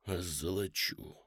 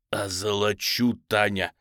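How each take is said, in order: First: Тихо, низко, протяжно; выдохнуть медленно, будто в беспамятстве; бессознательное бормотание. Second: Протяжный жаркий возглас; медленно, с напором соблазнять; страстное посулы. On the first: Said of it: "сам не понимая того, что говорит". (приглушённый страстный выдох) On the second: Осетров страстно сулит деньги. (умоляюще и настойчиво сулить награду) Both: A narrator's reading.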